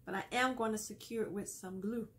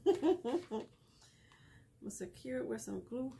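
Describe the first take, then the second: First: Said in the usual way. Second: Slow, breathy whispered repeat after a laugh; playful whisper. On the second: Real, not acted. Crafter whispering to her viewers while gluing, playful and slow. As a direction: lean in and whisper it like a little secret.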